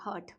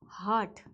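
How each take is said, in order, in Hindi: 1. स्वर एक छोटी 'uh' ध्वनि है। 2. स्वर एक लंबी खुली 'ah' ध्वनि है।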